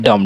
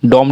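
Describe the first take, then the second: First: डम with a short uh vowel; correct dumb. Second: डॉम with a rounded o vowel; wrong dumb vowel. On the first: Teacher correcting to डम with short vowel. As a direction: say डम short, b silent. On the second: Teacher naming the wrong way, डॉम with rounded o. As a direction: say डॉम with an open aw sound. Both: Shown as a demonstration. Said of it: "डॉम नहीं".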